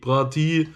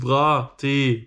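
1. Es endet auf einen kurzen 'ee'-Vokal, wie in Brati. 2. Es endet auf einen langen 'eh'-Vokal, wie in Tee.

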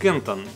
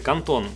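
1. Название произносят, как англоговорящие. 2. Название произносят, как немцы. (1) "англичане и весь англоязычный мир говорят Canton" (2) "а немцы Canton"

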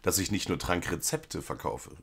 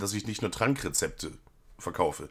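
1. Die Hauptbetonung liegt auf "rezepte". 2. Die Hauptbetonung liegt auf "Trank". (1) "Ich hätte es anders betont" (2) "Und so wie das betont ist, verkauft er auch noch andere Rezepte"

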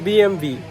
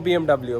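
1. শেষ অক্ষরটা ভি বলা হয়। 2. শেষ অক্ষরটা ডাবল-ইউ বলা হয়। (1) "এরা বলে হচ্ছে বিএমভি" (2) "বিএমডাব্লিউ কথাটা উচ্চারণ করলে এরা হাসে"

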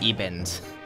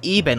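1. Das Wort endet auf einen angehängten d-Laut. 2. Das Wort endet auf einen n-Laut. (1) "und nicht ebend. Das sagen wohl viele falsch" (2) "Das heißt eigentlich eben"

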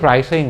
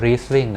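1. สระตัวแรกออกเสียงเหมือน 'eye' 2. สระตัวแรกออกเสียงเหมือน 'ee' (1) "ไม่ใช่" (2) "อ่านว่า"

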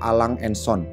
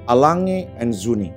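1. Nama ini dibaca huruf per huruf sesuai ejaannya. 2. Nama ini diucapkan sesuai pengucapan aslinya. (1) "beberapa orang nyebutin merek ini" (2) "cara baca yang bener"

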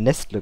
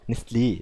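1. Der letzte Vokal wird verschluckt oder bleibt unbetont. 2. Der letzte betonte Vokal wird deutlich ausgesprochen. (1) "ich habe es immer Nestle genannt" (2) "Man muss ja Nestlé sagen. ... Aber da ist ja der Akzent drauf"

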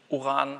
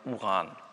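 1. Der erste Vokal ist lang. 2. Der erste Vokal ist kurz. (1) "U ist nicht Uran" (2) "sondern Uran"

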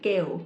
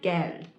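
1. คำนี้ไม่มีเสียง d ตอนท้ายค่ะ 2. คำนี้มีเสียง d ตอนท้ายค่ะ (1) "เกลไม่ใช่นะคะ" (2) "คำนี้คือ, Geld"

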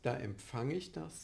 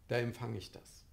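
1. Der P-Laut im Verb wird gesprochen. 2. Der P-Laut im Verb wird ausgelassen. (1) "dass eben nicht gesagt wird" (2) "dass das P ausfällt"

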